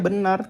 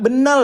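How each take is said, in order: First: The word ends with an r sound. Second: The word ends with an l sound. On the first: It is the normal adult pronunciation. The speaker calls it right. "ngomong benar ya benar" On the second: It imitates a child's pronunciation. The speaker calls it wrong. "jangan ulal ulal gitu ataupun benal ya nak"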